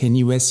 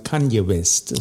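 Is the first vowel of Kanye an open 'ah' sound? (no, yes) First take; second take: no; yes. First: The first vowel is not an open 'ah'. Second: The first vowel is an open 'ah'. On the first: The speaker calls it wrong. "der heißt nicht [name]" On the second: The speaker calls it right. "sondern Kanye West. Das schreibt man als A aus"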